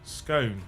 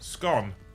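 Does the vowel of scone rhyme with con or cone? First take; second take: cone; con. First: The vowel is long, rhyming with cone. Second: The vowel is short, rhyming with con. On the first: The speaker calls it right. "How do you say the word C O N E? Cone. Put an S in front of it" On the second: The speaker calls it wrong. "How do you pronounce the word? Con. Put an S in front of it"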